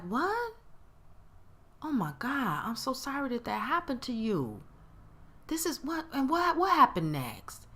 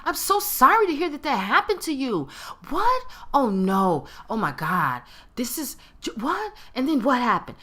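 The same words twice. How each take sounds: First: Soft, concerned shock; genuinely sympathetic. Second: Mock sympathy bubbling with excitement, pitched up; high, loud, eager-for-the-dirt reactions; excited hot-gossip tone. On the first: Acted. Caring friend hears what happened to you, sympathetic. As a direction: gently take in a friend's bad news, softly and pitched up. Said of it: "Different tone". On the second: Friend hungry for gossip hears bad news, excited. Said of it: "that is the tone of someone ... got them some hot gossip. They're excited".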